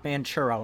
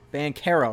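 First: The 'ch' sounds like the 'ch' in churros. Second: The 'ch' does not sound like churros. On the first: The speaker calls it wrong. "not Banchero, not like churros" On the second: The speaker calls it right. "Paolo Banchero"

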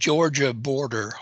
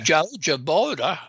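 First: It is said in a standard accent. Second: It is said in a Southern accent.

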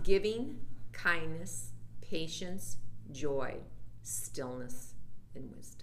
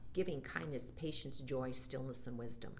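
First: The list is said slowly. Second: The list is said fast.

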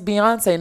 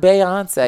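First: The first syllable sounds like 'bee'. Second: The first syllable sounds like 'bay'. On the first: The speaker calls it right. "Her name is [name]" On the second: The speaker calls it wrong.

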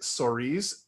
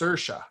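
First: The name is pronounced like 'Soriz'. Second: The name is not pronounced like 'Soriz'. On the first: The speaker calls it wrong. "I always say it Soriz because I thought that's how you say her name" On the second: The speaker calls it right. "It's Saoirse"

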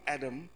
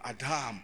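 First: The word is pronounced the English way. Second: The word is pronounced the Hebrew way. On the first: The speaker calls it wrong. "Not Adam" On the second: The speaker calls it right. "They would say Adam in Hebrew"

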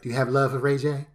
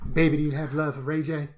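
First: It is said in the speaker's plain voice. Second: It is said in an imitation of Ray J.

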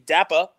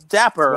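First: The final R is dropped, ending in an 'ah'. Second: The final R is pronounced hard and strongly. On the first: The speaker calls it wrong. "people will accuse me of saying Dapper, like D-A-P-P-A" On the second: The speaker calls it right. "So I make sure I hammer that R"

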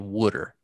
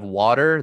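First: It is said in a Philadelphia accent. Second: It is said in a standard American accent. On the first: "they're doing that Southern Philly accent... they say water" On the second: "instead of water"

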